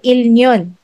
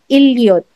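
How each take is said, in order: First: The middle consonant is an n sound. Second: The middle consonant is an l sound. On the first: The speaker calls it wrong. "hindi siya ilnyon" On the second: The speaker calls it right. "but ilyot"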